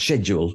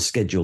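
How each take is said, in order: First: The word uses the British pronunciation. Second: The word uses the American pronunciation. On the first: The speaker calls it right. "told me that it was pronounced schedule" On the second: The speaker calls it wrong. "Schedule, he said, was an Americanism"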